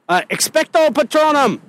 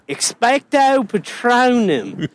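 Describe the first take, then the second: First: It is said in a plain, neutral accent. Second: It is said in a hillbilly Southern accent.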